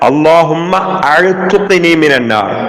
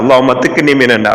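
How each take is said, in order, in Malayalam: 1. ഈ ക്രിയ പൂർണ്ണമായി ചൊല്ലുന്നു, 'a' കൊണ്ട് തുടങ്ങുന്നു. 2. ഈ ക്രിയ ചുരുക്കി ചൊല്ലുന്നു, 'i' കൊണ്ട് തുടങ്ങുന്നു. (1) "ലാസ്റ്റ് പത്തുക്ക് ചൊല്ലേണ്ടത്" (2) "ചില ആൾമാർ അങ്ങനെ ചൊല്ലാറ്, ... അങ്ങനല്ല"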